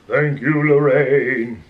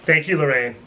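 First: It is said in a spooky put-on voice. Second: It is said in an ordinary natural voice.

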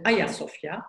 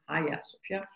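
First: The name is said with a Turkish pronunciation. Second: The name is said with an English pronunciation. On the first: This is the name as used in Turkish. The speaker calls it right. "which is also used in Turkish for the Turkish version, we call it" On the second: This is the name as used outside Turkish. The speaker calls it wrong.

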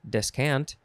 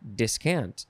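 First: The first syllable is pronounced 'des'. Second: The first syllable is pronounced 'dis'. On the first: "Des or dis again" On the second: "Des or dis again"

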